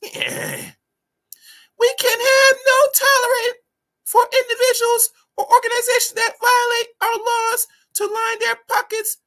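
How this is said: It is read in a put-on female voice.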